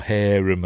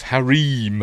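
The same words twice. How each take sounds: First: "harem" said as HAIR-um; "harem" starting like hair, unstressed -um; stress on first syllable. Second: "harem" said as huh-REEM; "harem" rhyming with dream; stress on second syllable. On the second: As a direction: say "harem" with a long ee, stressed at the end. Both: Shown as a demonstration. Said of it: "however you wanna pronounce it".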